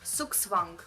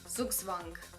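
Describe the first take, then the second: First: The w has a strong v sound. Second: The w has a weak v sound.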